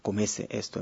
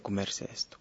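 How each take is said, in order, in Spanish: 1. La r del verbo se pierde. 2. La r del verbo se pronuncia claramente. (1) "Él va a comerse esto" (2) "en vez de"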